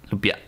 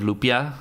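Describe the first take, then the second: First: "Lupia" cut off by a glottal stop; glottal stop ending. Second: Said in the usual way. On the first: Shown as a demonstration. Practicing a Filipino word, "Lupia" with final glottal stop. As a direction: stop the breath after the last vowel of "Lupia". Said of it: "Put the glottal stop at the end of lupia". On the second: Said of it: "Put the glottal stop at the end".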